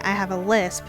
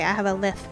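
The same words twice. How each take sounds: First: The s sound is pronounced clearly. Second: The s sound is pronounced with a lisp. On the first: This is what the person intends to say. "you try to say" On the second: This is what actually comes out. "if you have a lisp, like I did when I was little"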